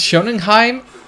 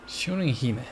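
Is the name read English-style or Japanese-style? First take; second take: English-style; Japanese-style. First: The name is read with English-style vowels. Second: The name is read with Japanese-style vowels. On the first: The speaker calls it wrong. "No, that doesn't sound like" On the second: The speaker calls it right. "It's like in Spanish. It's the same pronunciation"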